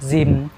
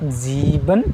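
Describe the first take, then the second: First: The word is clipped to one quick syllable. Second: The word is said slowly with both syllables. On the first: "kalau ya percakapan santai" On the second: "Kalau lambat"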